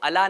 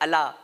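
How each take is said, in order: First: The vowel is said short. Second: The vowel is drawn out long. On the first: The speaker calls it wrong. "अला के ऊपर मद भी है तो अला नहीं कहना है" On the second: The speaker calls it right. "अला के ऊपर मद भी है"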